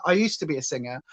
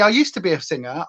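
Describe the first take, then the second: First: Much softer, lower second take; soft repeat. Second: Said in the usual way. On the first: Shown as a demonstration. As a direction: drop it to a murmur. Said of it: "repeated softer".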